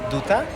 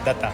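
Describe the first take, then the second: First: The first vowel sounds like 'oo'. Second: The first vowel sounds like 'ah'. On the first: The speaker calls it wrong. "people pronounce it as D Duta" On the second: The speaker calls it right. "the correct pronunciation is Pavan Datta"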